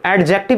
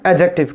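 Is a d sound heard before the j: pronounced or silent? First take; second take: pronounced; silent. First: A clear d sound is heard before the j. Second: No d sound is heard before the j. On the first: The speaker calls it wrong. "इसको एडजेक्टिव नहीं बोलिएगा" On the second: The speaker calls it right. "डी को soundless कर देते हैं"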